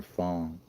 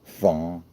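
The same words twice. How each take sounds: First: "France" as Greer says it, with an open "ah"; mock posh "Frahnce"; "France" with a broad "ah" vowel; Greer's French France. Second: "France" said the flat American way, a bit louder; hard American "France" as a correction. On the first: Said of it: "He goes, "Well, we were in France". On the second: Shown as a demonstration. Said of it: "Say it like a fucking American".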